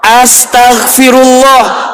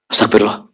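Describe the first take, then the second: First: It is said slowly and calmly. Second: It is rushed and run together quickly. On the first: The prayer is recited calmly and with feeling. The speaker calls it right. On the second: The prayer is recited hastily without care. The speaker calls it wrong.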